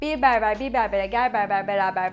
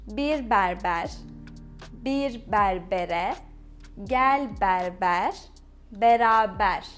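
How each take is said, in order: First: It is said quickly without pauses. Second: It is said slowly with pauses. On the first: "now let's try to pronounce it fastly" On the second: "let me say it slowly first"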